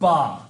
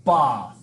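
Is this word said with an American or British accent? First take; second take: British; British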